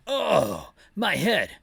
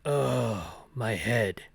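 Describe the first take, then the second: First: Leon's voice. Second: Lower, gruff-leaning Barry take on the line; the Barry voice, low and groggy; Leon's line slipped into Barry's low voice. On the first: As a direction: lift into Leon, dazed. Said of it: "That's what Leon sounds like". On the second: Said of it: "Now that's Barry's voice". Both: Acted.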